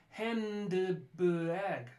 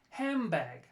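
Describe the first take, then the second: First: The middle is said with n and d. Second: The middle is said as an m sound.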